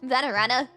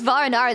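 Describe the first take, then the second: First: The name is said with four syllables. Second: The name is said with three syllables. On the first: The speaker calls it right. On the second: The speaker calls it wrong.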